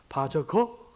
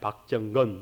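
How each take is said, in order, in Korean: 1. 미국식으로 잘못 발음해요. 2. 한국식으로 발음해요. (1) "이상하게 하여튼 발음을 해요" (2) "제가 박정건입니다"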